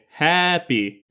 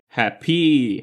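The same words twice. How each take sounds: First: The stress is on the first syllable. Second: The stress is on the second syllable. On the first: The speaker calls it right. "It's quite natural to say happy" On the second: The speaker calls it wrong. "strange to say happy"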